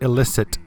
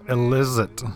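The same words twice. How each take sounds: First: The word is pronounced clearly and crisply. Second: The word is slurred and indistinct. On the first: The speaker calls it right. "instead of" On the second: The speaker calls it wrong. "his slurred words there going"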